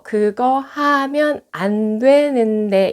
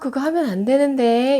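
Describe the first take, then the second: First: It is spoken very slowly and deliberately. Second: It is spoken at a natural, quick pace. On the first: The speaker calls it wrong. "이렇게 얘기하지 않거든요" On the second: The speaker calls it right. "이렇게 얘기하죠"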